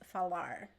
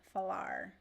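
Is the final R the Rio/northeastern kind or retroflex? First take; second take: retroflex; retroflex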